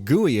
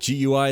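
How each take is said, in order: First: It is said as one single word. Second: It is spelled out as separate letters. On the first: It sounds like an ordinary word. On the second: It is an acronym.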